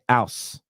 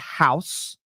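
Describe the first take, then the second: First: The word begins with no h sound. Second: The word begins with an audible h sound.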